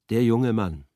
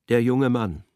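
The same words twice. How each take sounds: The two takes are said the same way.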